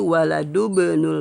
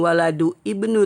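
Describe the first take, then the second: First: The vowel is dropped and the words link. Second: The vowel starting ibnu is pronounced separately. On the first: The speaker calls it right. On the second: The speaker calls it wrong.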